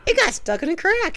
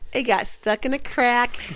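First: It is said in a silly, put-on funny voice. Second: It is said flatly in a plain, deadpan voice. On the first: "You didn't do the funny voice?" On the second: "it was deadpan"

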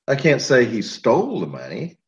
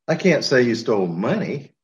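First: The word "stole" is stressed. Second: The word "money" is stressed. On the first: He may have got it another way. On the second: He may have stolen something else.

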